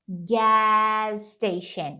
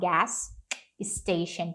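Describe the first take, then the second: First: The two s sounds merge into one. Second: Both s sounds are pronounced separately. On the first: "eles costumam meio que sumir com um desses sons" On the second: "Ao invés de falar"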